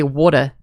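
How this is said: It is said in an Australian accent.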